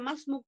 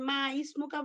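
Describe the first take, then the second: First: The 'i' is dropped and 'ma' joins 'smuk'. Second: The 'i' is sounded separately after 'ma'. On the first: The speaker calls it right. "মাসমুক পড়বেন" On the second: The speaker calls it wrong. "এটা কি মা ইসমুকা পড়বেন"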